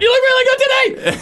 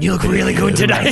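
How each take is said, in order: First: It is said high-pitched, loud and nervous. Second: It is said with a heavy, creepy breath.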